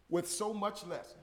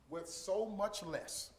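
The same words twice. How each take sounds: First: Said in the usual way. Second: Slow emphasis. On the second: Shown as a demonstration.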